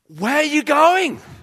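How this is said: It is asked with urgent, anxious emotion.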